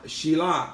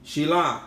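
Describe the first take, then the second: First: The name ends with an 'ah' vowel. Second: The same.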